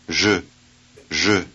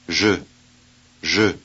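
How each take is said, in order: The two takes are said the same way.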